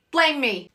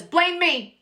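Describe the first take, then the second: First: Raised, exasperated repeat; dramatic blame me, repeated. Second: High, exasperated cry; dramatic blame me. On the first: Accused housewife repeating it at dinner, exasperated. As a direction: say it again, still the martyr but settling. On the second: Accused housewife at dinner, high exasperated cry. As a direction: fling it out like a martyr. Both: Retold or imitated.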